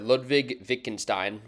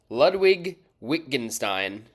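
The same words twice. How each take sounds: First: The name is said with German pronunciation. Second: The name is said with English pronunciation. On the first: "with more of a German pronunciation" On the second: "in the English"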